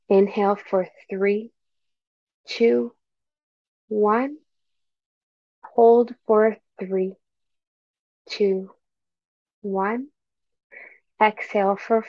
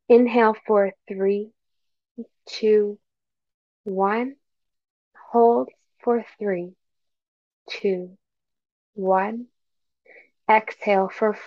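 No difference in how they are said.

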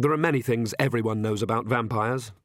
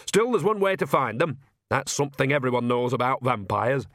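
First: Said in the usual way. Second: Put-on perky old countrywoman; old witch voice. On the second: A narrator's reading. Nanny's voice in the story.

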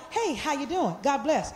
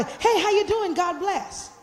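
First: Soft, dismissive hello with no interest; fake greeting. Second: A brighter, higher, sincere hello; genuine greeting. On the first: Pastor showing the after-church greeting she dislikes, hollow and dismissive. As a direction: brush them off politely without meaning it. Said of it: "I don't like". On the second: Pastor showing churchgoers the greeting she would like, warmly sincere. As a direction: greet them like you truly mean it. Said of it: "I would like". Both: Shown as a demonstration.

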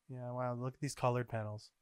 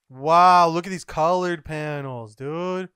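First: Soft, subdued reaction; understated wow, softly spoken. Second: Loud, bursting wow; loudly amazed, as if showing a friend; excited awe. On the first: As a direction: remark on it quietly, almost to yourself. First, subdued reaction to pictures. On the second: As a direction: exclaim it, hitting WOW loud. Same reaction, now exclaimed. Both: Real, not acted.

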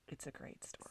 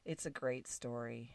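First: Whispered, breathy repeat; soft whispered aside. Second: Said in the usual way. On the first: Real, not acted. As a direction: whisper it as an afterthought.

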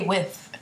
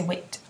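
First: Said in the usual way. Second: "wit" ending in a hard T; with pronounced wit. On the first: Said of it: "we don't say with". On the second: Shown as a demonstration. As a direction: say "wit", T in place of TH. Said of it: "You say wit".

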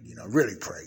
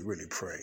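First: "really pray" pushed out loud and hard, "really" leaned on; stress on really pray. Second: Said in the usual way. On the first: Real, not acted. Preacher urging the saints to really pray, emphatic. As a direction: urge "really pray" with force. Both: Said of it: "I don't say that loosely".

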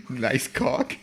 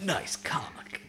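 First: Laughing it out as a question; giggling, rising at the end. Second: Whispered mock Shadow the Hedgehog line; breathy edgy hedgehog voice, whispered; Shadow the Hedgehog impression. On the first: Real, not acted. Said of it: "Is that what we're calling this one?". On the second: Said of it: "Is that your Shadow the Hedgehog impersonation?".

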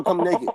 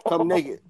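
First: Said in the usual way. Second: Breathy whispered repeat. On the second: Shown as a demonstration. Host repeats the invite to a viewer, whispering. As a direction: whisper it suggestively.

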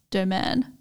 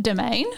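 First: 'domaine' said the French way, ending in an open 'en'; French pronunciation. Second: Domain said the plain Australian way; Australian accent. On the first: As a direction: say domaine as French, lower. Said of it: "But in French, I think it's". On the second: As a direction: say 'domain' as an English word, Australian accent. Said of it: "say it in an Australian accent". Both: Shown as a demonstration.

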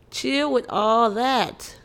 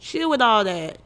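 First: Slow, drawn-out chill with all that; a slow, weary chill with all that; slow plea. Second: Said in the usual way. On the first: Shown as a demonstration. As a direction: stretch every word to make them stop. Repeats the plea slower.

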